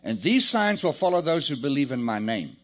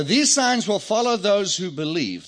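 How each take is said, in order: First: "believe in my name" run together as one phrase; no pause before name. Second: Loud, with a full stop after "believe". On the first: Preacher rereading with the colon moved, "believe in my name" joined. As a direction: carry straight on from "believe" into "in my name". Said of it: "and then read it like this". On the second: Preacher reading the verse as punctuated, stop after "believe". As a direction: end the phrase firmly on "believe". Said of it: "Let's take out the colon". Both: Shown as a demonstration.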